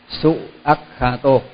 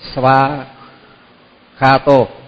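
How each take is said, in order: First: The parts are said separately as su akkhato. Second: The parts are merged into one word, svakkhato.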